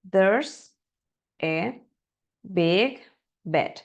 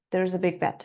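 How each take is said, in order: First: The words are said separately in a choppy way. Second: The words run together smoothly and fluently. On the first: "Está bien practicarlo así" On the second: "Es cómo vamos a pronunciar normalmente eso de manera fluida"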